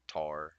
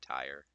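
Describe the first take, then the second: First: The vowel is a flat, single 'ah' sound. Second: The vowel glides from 'ah' to 'ee'. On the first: "Instead of just saying like tar" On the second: "I say tire"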